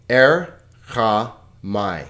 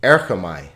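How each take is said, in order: First: Erchamai broken slowly into Er, cha, mai; syllable by syllable. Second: Said in the usual way. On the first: Shown as a demonstration. Teacher showing students the three syllables, Erchamai slowly split. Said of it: "there are three vowel sounds, three syllables". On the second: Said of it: "Let's look at a little longer word".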